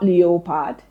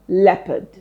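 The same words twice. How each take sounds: First: The second syllable has a full vowel. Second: The second syllable has a weak 'uh' vowel. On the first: The speaker calls it wrong. "Not leopard" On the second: The speaker calls it right. "it's pronounced as uh"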